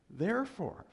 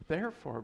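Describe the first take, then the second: First: "Therefore" said high and hard, then breaks into a laugh; emphatic therefore. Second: Said in the usual way. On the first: Real, not acted. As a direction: launch "Therefore" up high with force.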